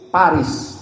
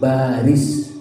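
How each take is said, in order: First: The word begins with a P sound. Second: The word begins with a B sound. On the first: The speaker calls it wrong. "Jangan menyebut Paris, tidak ada pak" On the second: The speaker calls it right. "tapi baris"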